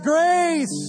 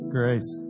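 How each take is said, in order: First: The word is shouted loudly with energy. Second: The word is said quietly and half-heartedly.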